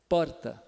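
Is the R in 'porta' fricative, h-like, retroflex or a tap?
tap. The R is a single quick tongue tap. "o paulistano ... vibrante simples ... É uma batidinha breve"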